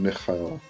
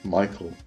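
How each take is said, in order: First: The name is said with a Hebrew pronunciation. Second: The name is said with an English pronunciation. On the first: The speaker calls it right. "that's how I was taught to pronounce them" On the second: The speaker calls it wrong. "I don't say Archangel Michael"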